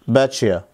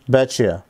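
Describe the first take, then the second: First: The t and y merge into a ch sound. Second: The t and y merge into a ch sound.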